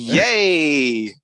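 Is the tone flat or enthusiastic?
enthusiastic. It is said with lively enthusiasm.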